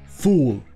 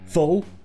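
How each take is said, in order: First: The vowel is a full long OO sound. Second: The vowel is a short reduced schwa sound. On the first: The speaker calls it wrong. "avec les sons O, OU et E" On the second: The speaker calls it right. "ça se prononcera avec le son court E"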